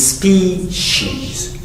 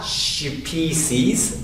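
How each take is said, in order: First: Species said slowly with sh; correct pronunciation. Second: Species with plain s, not sh; wrong pronunciation. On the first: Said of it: "It's species". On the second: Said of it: "And not species". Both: Shown as a demonstration.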